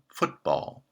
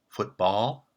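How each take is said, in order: First: The stress is on the first syllable. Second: The stress is on the second syllable. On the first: The speaker calls it right. "stress for the compound is placed on foot" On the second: The speaker calls it wrong. "We don't say football"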